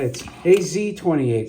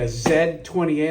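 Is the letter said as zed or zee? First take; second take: zee; zed. First: The letter Z is said as zee. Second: The letter Z is said as zed.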